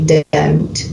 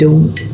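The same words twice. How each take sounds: First: It is said in an American Southern accent. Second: It is said in a Scottish accent.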